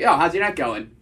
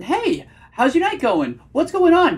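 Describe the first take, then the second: First: "going" dropped firmly at the end, like a statement; attractive hard-period tonality. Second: High, drawn-out "Hey", voice climbing on "going on"; over-eager, high and slow questioning; nervous octave-up tonality. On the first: Coach shows his dating delivery, confident falling tone. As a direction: ask "how's your night going" with a falling, settled ending. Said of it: "way more attractive vocal tonality". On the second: Coach mocks a nervous guy greeting a date, nervous high pitch. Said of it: "you can just hear the nervousness". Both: Shown as a demonstration.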